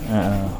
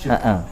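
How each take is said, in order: The two takes are said the same way.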